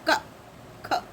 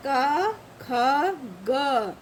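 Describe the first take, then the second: First: क, ख cut very short without the long a; vowel cut off. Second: क, ख, ग each held with an open a; inherent vowel sounded. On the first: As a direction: stop क and ख right after the consonant. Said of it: "का हमने इससे अलग कर दिया". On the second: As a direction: let the a ring after क, ख and ग. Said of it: "जैसे ही अगर इसको हम हटाएंगे". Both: Shown as a demonstration.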